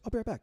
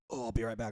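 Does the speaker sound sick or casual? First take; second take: casual; sick. First: It sounds casual and relaxed. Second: It sounds sick and distressed.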